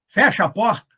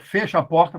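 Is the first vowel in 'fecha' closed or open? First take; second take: open; closed. First: The first vowel of fecha is open. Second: The first vowel of fecha is closed. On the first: This is casual, informal speech. "linguagem informal" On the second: This is formal, standard speech.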